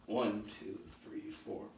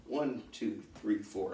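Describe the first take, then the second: First: Hushed count with the steps; counting softly. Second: Said in the usual way. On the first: Shown as a demonstration. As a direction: breathe out a soft count.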